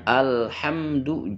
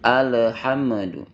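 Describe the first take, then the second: First: The l and m are held smoothly without bouncing. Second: The l and m are released with a bounce. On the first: The speaker calls it right. "Dibacanya alhamdu" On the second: The speaker calls it wrong. "itu keliru kalau dibaca mantul"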